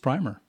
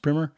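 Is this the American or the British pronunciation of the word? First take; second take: British; American. First: It uses the British and Canadian pronunciation. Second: It uses the common American pronunciation. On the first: "if you're in the UK or Canada, it's primer" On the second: "if you're in the States, quite often it's pronounced primer"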